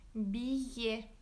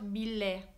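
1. Le double L se prononce comme un y. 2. Le double L se prononce comme un l. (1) "Other than that, is pronounced as y" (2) "not billet"

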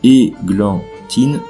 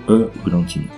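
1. La première voyelle est un son 'é' net. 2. La première voyelle est un son 'e' faible, non accentué. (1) "Il faut un accent sur le E" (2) "Sans accent, on devrait prononcer"

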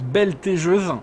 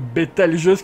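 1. Le son L vient avant le son T. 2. Le son L vient après le son T. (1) "on m'a dit dans les commentaires que je prononce Beltégeuse" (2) "qui me paraît vraiment bizarre"

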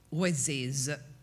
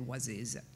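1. Si pronuncia con l'antica pronuncia medievale. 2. Si pronuncia con la pronuncia francese moderna. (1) "come si pronunciava allora" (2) "adesso sarebbe"

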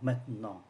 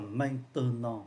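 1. Từ này chỉ đọc hai âm tiết. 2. Từ này được đọc đủ ba âm tiết. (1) "có ba âm tiết maintenant 1 2 3 thì chỉ còn hai thôi" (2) "Không cần đọc là maintenant"

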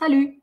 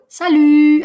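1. Конечная гласная произносится довольно коротко. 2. Конечная гласная тянется долго. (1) "А можно коротко" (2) "Можно долго"

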